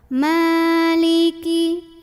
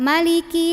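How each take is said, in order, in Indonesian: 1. Vokal pertama dibaca panjang. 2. Vokal pertama dibaca pendek. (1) "ini mimnya panjang dua harokat" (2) "jadi nggak maliki yau"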